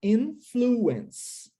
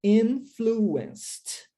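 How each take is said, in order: First: "Influence" in three beats, in-flu-ence, no final t; three syllables. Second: "Influenced" in three beats, ending in a crisp st sound; final D added. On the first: Teacher shows present form, "Influence" in three clear syllables. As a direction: say "Influence" ending on the s sound. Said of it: "três sílabas". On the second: Teacher shows past form, "Influenced" with an added final t sound. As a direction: close "Influenced" on a t, no extra syllable. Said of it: "tem esse D no final". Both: Shown as a demonstration.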